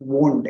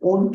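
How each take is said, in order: First: The word starts with a clear w sound. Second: The word starts with a vowel, no w sound. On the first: The speaker calls it right. "वोंट आहे" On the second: The speaker calls it wrong. "हे ओंट नाहीये"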